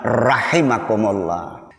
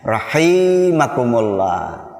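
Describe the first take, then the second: First: The vowel after 'rah' is kept short. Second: The vowel after 'rah' is held long. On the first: May Allah have mercy on you. The speaker calls it right. "Tidak pakai mad" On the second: The meaning of the phrase is spoiled. The speaker calls it wrong. "ya itu salah, itu salah"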